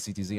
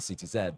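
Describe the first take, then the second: First: The final letter is said the American way. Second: The final letter is said the Canadian way. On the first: The name is used the way local players said it. "even though I'm Canadian, I'll say C T Z" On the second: The name is said as a Canadian normally would. "and not C T Z"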